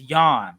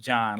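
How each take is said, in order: First: The name begins with a Y sound. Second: The name begins with a J sound. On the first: The speaker calls it right. "it is Yon" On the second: The speaker calls it wrong. "they will definitely be on your head about pronouncing it John"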